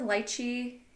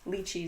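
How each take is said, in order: First: It is said the way its home country says it. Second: It is said the way North Americans say it. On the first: This is the term used where the fruit comes from. "lychee is like the proper term for wherever it's from" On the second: This is the term used in North America. "lychee is like the American, North American"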